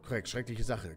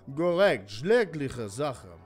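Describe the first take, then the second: First: It is spoken without a Russian accent. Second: It is spoken with a Russian accent. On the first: The speaker calls it wrong. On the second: The speaker calls it right.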